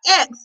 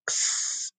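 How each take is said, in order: First: Said in the usual way. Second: "X" as a soft, voiceless kss; X sound. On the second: Shown as a demonstration. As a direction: hiss "X" as ksss, not ex. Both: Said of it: "what's the X sound".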